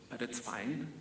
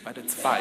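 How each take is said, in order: First: Soft, rising brush-off of the outfit; quietly resigned. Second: Falling, with a little laugh. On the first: Kid shrugging off a dull outfit, soft and rising. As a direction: let it go softly, hopeful upturn. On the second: Joking about the baby Undertaker look, chuckling. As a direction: shrug it off through a chuckle. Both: Real, not acted.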